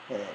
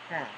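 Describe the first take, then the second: First: The word is short and unstressed. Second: The word is long and stressed. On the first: It is the auxiliary verb. "the auxiliary verb is short" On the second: It is the main verb. "the main verb is long and stressed"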